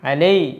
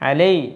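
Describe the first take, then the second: The two takes are said the same way.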